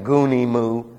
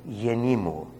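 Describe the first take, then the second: First: The first vowel sounds like 'oo'. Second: The first vowel sounds like 'ee'. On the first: The speaker calls it wrong. "they insist on pronouncing the Ypsilon like an U" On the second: The speaker calls it right. "you say Yenimu. Now that is endearing"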